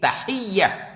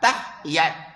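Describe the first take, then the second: First: The y is doubled and the word ends in h. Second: The h is closed and the word ends in t. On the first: This is the form used in the book. The speaker calls it right. "Te bagi atas, ha bagi bawah, ye ada tasydid" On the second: This is the everyday village way of saying it. The speaker calls it wrong. "Kita kalau kampung sebut tahiyat. te bagi atas, ha bagi mati, lepas tu ye bagi atas"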